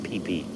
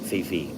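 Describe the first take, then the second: First: Both syllables begin with a P sound. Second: Both syllables begin with an F sound. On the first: The speaker calls it right. "they call it P P" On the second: The speaker calls it wrong. "not Fifi"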